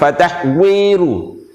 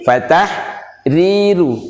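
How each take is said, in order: First: The last syllables use a w-like sound. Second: The last syllables use a clear r sound. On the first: The speaker calls it wrong. "bukan fatahwiru" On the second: The speaker calls it right. "tapi fatahriru"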